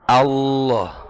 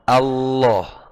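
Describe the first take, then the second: The two takes are said the same way.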